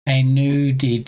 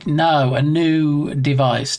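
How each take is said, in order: First: Said in the usual way. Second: Slow "no, a new device" with "new" leaned on and drawn out; stress on new. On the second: Shown as a demonstration. Streamer correcting his own slip, slowly leaning on "new". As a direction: drag it out and press hard on "new". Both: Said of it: "Definitely emphasis on the word new there".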